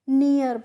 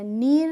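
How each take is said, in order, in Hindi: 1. स्वर 'ee' से 'uh' की ओर फिसलता है। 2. स्वर एक लंबा 'ee' है। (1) "हम इसको नियर पढ़ते हैं" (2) "नीर नहीं पढ़ते हैं"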